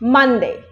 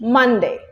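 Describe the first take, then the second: No difference in how they are said.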